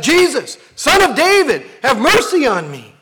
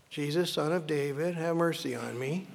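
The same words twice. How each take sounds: First: Loud, high desperate cry for mercy; desperate yell. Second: Soft, limp reading with a lazy rise; the wrong way: read it without any need; flat and limp. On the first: Acted. Blind man crying out to Jesus over the crowd, desperate shout. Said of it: "the blind man yells out". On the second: Shown as a demonstration. Preacher showing how not to read the cry, soft and limp. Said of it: "you shouldn't come to it and go".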